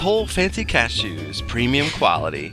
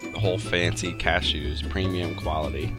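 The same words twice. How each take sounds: First: It is said in a showy sales-pitch voice. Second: It is read out in a plain, ordinary voice.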